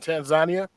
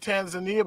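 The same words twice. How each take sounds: First: Tanzania is said the local way. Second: Tanzania is said the usual English way. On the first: This is how the guests taught the speaker to say it. The speaker calls it right. "you guys got me saying Tanzania" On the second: This is how the speaker used to say it. The speaker calls it wrong. "I used to say Tanzania"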